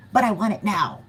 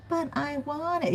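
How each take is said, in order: First: Demanding. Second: Whiny. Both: Pretend. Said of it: "And they're like".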